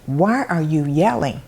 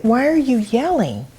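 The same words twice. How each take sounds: First: Said in the usual way. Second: High, startled why are you yelling; surprised mother asking her son; surprised question. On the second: Retold or imitated. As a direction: ask it surprised and pitched up.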